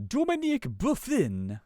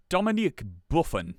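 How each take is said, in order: First: High-pitched mock French accent; bad French accent. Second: Said in the usual way. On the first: Shown as a demonstration. Host trying a French name, bad French accent. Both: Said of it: "I can't do a French accent".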